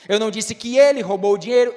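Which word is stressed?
ele. The stress falls on the word ele. Someone else stole it. "então quem foi que roubou?"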